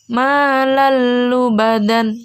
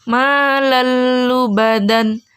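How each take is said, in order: Both takes have the same delivery.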